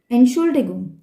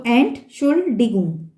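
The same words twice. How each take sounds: First: ENTSCHULDIGUNG joined in one go; whole word at once. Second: ENT, SCHUL, DIGUNG in slow separate chunks; pronounced separately. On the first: Teacher showing practised learners the goal, "Entschuldigung" as one unbroken word. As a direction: run "Entschuldigung" together without breaks. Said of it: "in one time". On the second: Teacher helping learners who can't say it whole, "Entschuldigung" slowly in separate parts. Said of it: "You can pronounce it separate". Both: Shown as a demonstration.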